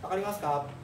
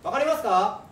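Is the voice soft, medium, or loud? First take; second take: soft; medium. First: It is said in a soft, gentle voice. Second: It is said in a medium-loud voice.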